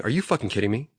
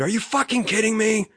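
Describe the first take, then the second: First: Said in the usual way. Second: Recreate the scream in disbelief, pitched up; retold scream. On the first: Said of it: "Like, out loud, I'm saying". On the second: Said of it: "and I screamed".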